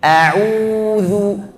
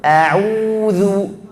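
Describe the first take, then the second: The two takes are said the same way.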